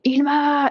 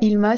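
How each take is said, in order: First: The name is said in a scolding, reproachful tone. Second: The name is said in a plain, neutral tone. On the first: It means what have you done this time. "ça veut dire qu'est-ce que t'as encore fait" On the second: It means starlight. "c'est censé vouloir dire lumière des étoiles"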